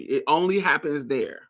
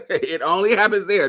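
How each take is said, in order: First: Said in the usual way. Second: Laughing through the words. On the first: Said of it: "It only happens there. (repeated, laughing)". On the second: Real, not acted. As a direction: say it with a real laugh. Repeats line while laughing.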